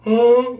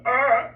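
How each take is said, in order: First: High, loud airy ah; much higher, louder ah full of air; breathy voice. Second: High, loud pinched ah; much higher, louder strained ah; tight voice. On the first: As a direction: open up and let all the air go. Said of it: "a person with a breathy voice". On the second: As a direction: hold the breath back and squeeze it. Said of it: "become a tight person's". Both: Shown as a demonstration.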